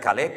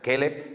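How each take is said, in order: First: The first vowel sounds like an open 'a'. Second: The first vowel sounds like an 'e'. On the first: It names a person. "se pronuncia Caleb para hablar de una persona" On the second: It names a dog. "se pronuncia Keleb para hablar del perro"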